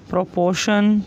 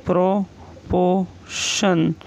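First: Said in the usual way. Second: Drawn out very slowly, syllable by syllable; slow teacher dictation of proportion. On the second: Shown as a demonstration. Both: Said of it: "next है".

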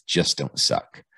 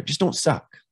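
First: Slow, deliberate mantra; quoted mantra. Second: Higher, pumped-up pep talk; pep-talk mantra. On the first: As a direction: lay the mantra out slowly, word by word. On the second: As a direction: cheer them on with the mantra, pitched up. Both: Retold or imitated. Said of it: "her mantra is".

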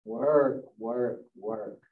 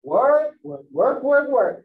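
First: Chanted, let Work sink and fade out; fading work chant. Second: Loud, punchy chant of work; chanted, hammer the word Work like a grudging drumbeat; mocking work chant. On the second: Teacher imitating the clock's nagging, loud rhythmic chant. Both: Shown as a demonstration. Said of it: "Hear my tone?".

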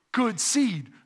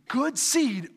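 Both takes have the same delivery.

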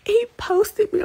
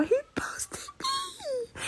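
First: Said in the usual way. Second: Breaking into a choked, whispered cry; almost crying, barely voiced; tearful whisper. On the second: Real, not acted. Teen overcome by her idol's post, tearful whisper. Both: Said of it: "I'm gonna cry".

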